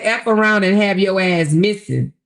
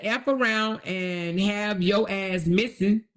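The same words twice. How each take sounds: First: Louder, punching the threat out; loud mock threat. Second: Said in the usual way. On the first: Reading the threat again to viewers, louder and mocking. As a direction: belt the quoted threat like she meant it. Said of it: "She said". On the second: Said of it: "she said".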